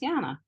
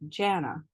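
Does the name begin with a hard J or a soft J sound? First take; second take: soft J; hard J. First: The name begins with a soft J sound. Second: The name begins with a hard J sound. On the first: This is how the name is easily repeated abroad. "if I just say it with the soft J" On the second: This is how the name was said where she grew up. "I grew up saying the J with a hard sound"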